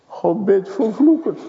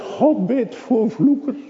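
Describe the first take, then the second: First: High and firm, stressing vloekers; first statement of the claim. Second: Much higher and slower, God stressed; slow emphatic repeat. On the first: Preacher proclaiming to the congregation, stress on vloekers. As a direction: state it boldly, leaning on vloekers. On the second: Preacher repeats his claim to a doubter, slow and emphatic. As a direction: spell it out slowly, hitting God. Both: Acted.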